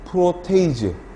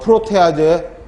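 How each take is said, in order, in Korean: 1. 단어는 'eiz' 소리로 끝나요. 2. 단어는 'aje' 소리로 끝나요. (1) "요즘은 에이즈로 발음을 많이 합니다" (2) "예전 교수님들은 다 ... 아제로 발음했죠"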